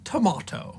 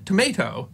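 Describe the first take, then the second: First: The stressed vowel is a long broad A. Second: The stressed vowel is a short flat A. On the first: This is the later upper-class southern English pronunciation. "an affectation of 18th century upper-class Englishmen in southern England" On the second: This is the older pronunciation. "with the short A"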